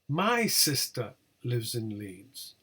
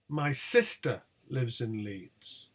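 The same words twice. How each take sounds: First: The word my carries the main stress. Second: The word sister carries the main stress. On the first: It is my sister, not yours, who lives there. "not yours" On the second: It is the sister, not the mother, who lives there. "not my mother"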